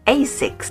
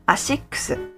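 First: It is said in an English-style pronunciation. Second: It is said in a Japanese-style pronunciation. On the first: "Japanese people probably don't recognize it when you say ASICS" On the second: "because we pronounce it ASICS"

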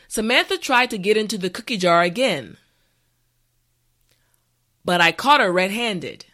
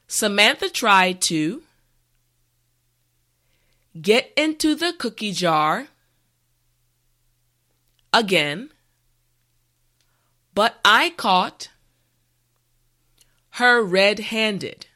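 First: The sentence is said at a normal pace. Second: The sentence is said slowly and carefully. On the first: "the last time at a regular pace" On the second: "this time repeat after me"

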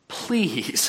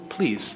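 First: It sounds incredulous and exasperated. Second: It sounds polite and gentle.

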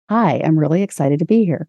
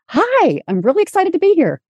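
First: It is said without confidence or power. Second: It is said with confidence and power.

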